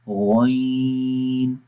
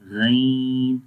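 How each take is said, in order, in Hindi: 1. अक्षर मोटा और भारी बोला जाता है। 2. अक्षर बारीक और हल्का बोला जाता है। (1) "मोटा पढ़ेंगे गईन" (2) "इसको बारीक नहीं पढ़ना, गईन गईन, तो ये गलत है"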